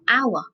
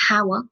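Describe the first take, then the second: First: The word begins directly with an ow sound. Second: The word begins with a breathy h sound. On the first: The speaker calls it right. "we say hour, which has got ow sound" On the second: The speaker calls it wrong. "we don't say hour"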